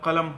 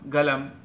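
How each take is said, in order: First: The word begins with a k-like sound. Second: The word begins with a g sound. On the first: This is the standard pronunciation. "আমরা শুদ্ধভাবে বলে কলম হয়" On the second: This is how Saudis say it. "সৌদিরা বলে গলম গলম, এটা গাইন গাইনের মতো উচ্চারণ করে"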